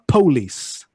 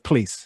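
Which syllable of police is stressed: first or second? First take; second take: first; second. First: The stress is on the first syllable. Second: The stress is on the second syllable. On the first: "police instead of police" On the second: "instead of police"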